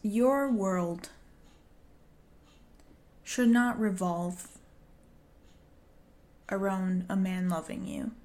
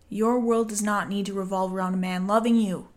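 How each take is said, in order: First: It is said at a normal, softer volume. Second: It is said louder, with more force.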